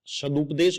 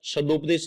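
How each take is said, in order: First: सदुपदेश said sa-dup-desh with a clear u after d; सदुपदेश with u in the second syllable; correct pronunciation. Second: सदुपदेश said sa-dop-desh with an o after d; सदुपदेश mispronounced with o instead of u; wrong pronunciation. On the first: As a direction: say सदुपदेश with the short u sound, as correct. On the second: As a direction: show the wrong form of सदुपदेश with o. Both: Shown as a demonstration. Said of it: "सदुपदेश नहीं होता".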